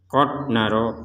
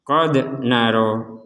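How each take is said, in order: First: The d is held with no echoing bounce. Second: The d is released with a short echoing bounce. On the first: The speaker calls it wrong. "tidak ada pantulan sama sekali. Itu salah" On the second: The speaker calls it right. "kita harus memantulkan huruf dal ini"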